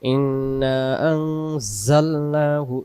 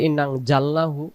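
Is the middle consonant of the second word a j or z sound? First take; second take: z sound; j sound. First: The middle consonant is a z sound. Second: The middle consonant is a j sound. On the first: The speaker calls it right. "এখানে এই এই অক্ষরে যা" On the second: The speaker calls it wrong. "এই যা অক্ষরের জায়গায় জিম আসতেছে"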